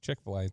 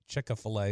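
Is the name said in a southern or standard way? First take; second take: standard; southern. First: It is said the standard way, three syllables. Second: It is said the southern way, with extra syllable.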